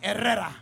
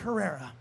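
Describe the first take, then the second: First: The name is said with rolled Spanish R sounds. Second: The name is said with plain English R sounds. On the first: The speaker calls it right. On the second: The speaker calls it wrong.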